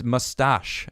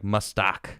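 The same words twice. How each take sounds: First: Said in the usual way. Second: "mustak" said MUS-tahk, ending in a hard k; pronounced mustak. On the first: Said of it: "actually. There's no E at the end". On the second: Shown as a demonstration. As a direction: say "mustak" with a short ah and a hard k at the end. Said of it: "There's no E at the end".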